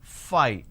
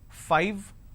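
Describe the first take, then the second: First: It ends without the lower lip on the teeth. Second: It ends with the lower lip on the teeth. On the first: The speaker calls it wrong. "lot of us mispronounce this as five" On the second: The speaker calls it right. "I need to bite my lower lip to end the word"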